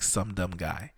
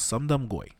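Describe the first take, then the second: First: "Some Dumb Guy" as three everyday words, ending on "Guy"; name as English words. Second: "Sum Dum Goy" run together quickly, ending on "Goy"; name said fast. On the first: Podcaster revealing the joke in the name, pronounced as "Some Dumb Guy". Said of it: "it sounds like Some Dumb Guy". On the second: Podcaster slipping the movie master's name past listeners, said fast as "Sum Dum Goy". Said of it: "now I said it fast". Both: Shown as a demonstration.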